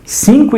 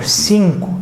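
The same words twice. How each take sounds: First: High, startled Cinco as a doubting question; surprised student. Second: Said in the usual way. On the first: Pretend. Student questioning teacher Heitor, a mock surprised Cinco. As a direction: sound like a student who can't believe it.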